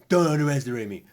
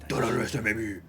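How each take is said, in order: First: It is said in a normal voice. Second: It is said in a gravelly Batman voice.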